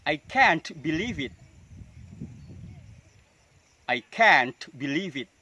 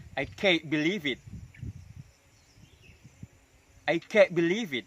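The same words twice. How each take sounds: First: Slow, can't stressed with a burst T; released final t. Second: Higher, can't cut short with unreleased T; held final t. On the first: Teacher drilling an example sentence, slowly, T released in can't. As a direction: lean on can't and pop its T. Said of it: "Itu contoh yang dilutupkan". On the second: Teacher drilling the second version, T held back in can't. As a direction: stop the T of can't without a burst. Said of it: "dengan cara menahan huruf T". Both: Shown as a demonstration.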